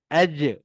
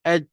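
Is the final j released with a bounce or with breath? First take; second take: bounce; breath. First: The final j bounces with a short vowel-like release. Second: The final j is held with breath escaping. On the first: "bila kita lantunkan dia" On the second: "kalau kita buat nafas terkeluar tadi"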